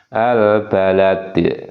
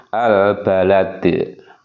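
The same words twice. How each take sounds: First: The word ends on a bare consonant. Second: The word ends on a bare consonant.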